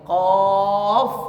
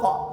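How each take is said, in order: First: The word ends with an f sound. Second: The word ends with a hard k sound. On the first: The speaker calls it right. "tapi kof" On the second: The speaker calls it wrong. "cara bacanya bukan kok"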